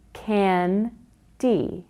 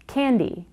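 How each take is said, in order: First: "Can-D" in two separate beats; chin-bounce syllables. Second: Said in the usual way. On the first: Shown as a demonstration. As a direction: split "Can-D" cleanly in two. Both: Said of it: "note how their chin moves".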